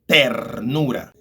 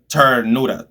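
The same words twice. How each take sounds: First: The t is said the Spanish way. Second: The t is said the English way. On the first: The speaker calls it right. "Ter, ternura" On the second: The speaker calls it wrong. "It's not ternura"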